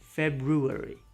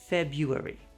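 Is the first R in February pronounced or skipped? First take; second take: pronounced; skipped. First: The first R is clearly pronounced. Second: The first R is skipped. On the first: "Some people actually do pronounce the R" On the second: "most native speakers just skip it"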